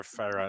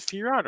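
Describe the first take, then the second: First: Firat said the other way, stressed fi-RAHT; alternative name pronunciation. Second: Firat said as FEER-aht; unsure name pronunciation. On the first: Host guessing at a chatter's name, second pronunciation of Firat as fi-RAHT. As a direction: offer Firat with the weight moved to the second syllable. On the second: Host puzzling over a chatter's name, tentative first pronunciation of Firat. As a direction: try Firat with a clear FEER opening, as FEER-aht. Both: Shown as a demonstration. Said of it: "never know how to pronounce that".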